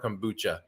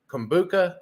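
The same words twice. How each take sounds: First: The last consonant is a 'ch' sound. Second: The last consonant is a hard 'k' sound. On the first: "a C H sound" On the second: "a hard K"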